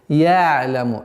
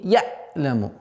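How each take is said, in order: First: The ayn glides softly without a sharp stop. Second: The ayn is cut off with a sharp stop. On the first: The speaker calls it right. "Такой скользящий, мягкий звук" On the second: The speaker calls it wrong. "резкая остановка"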